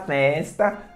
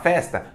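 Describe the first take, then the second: First: It is said with a Bahia accent. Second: It is said with a São Paulo accent. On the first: "Na Bahia o pessoal fala festa" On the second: "São Paulo você fala festa"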